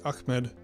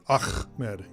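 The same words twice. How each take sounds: First: The middle throat sound is light and soft. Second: The middle throat sound is strong and exaggerated. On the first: The speaker calls it right. "It's like Ahmed" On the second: The speaker calls it wrong. "over enunciating the ch part of it"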